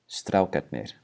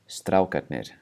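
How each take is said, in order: No difference in how they are said.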